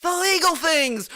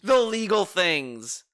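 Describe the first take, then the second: First: "legal" jumps high with a sarcastic fall; "The legal things" pitched high in mock disbelief; incredulous emphasis. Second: The legal things drawn out slowly and evenly; slow, deliberate. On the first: Streamer echoes the guest's phrase incredulously to chat. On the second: Streamer repeats the guest's phrase slowly to chat. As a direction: savour "the legal things" word by word. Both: Shown as a demonstration.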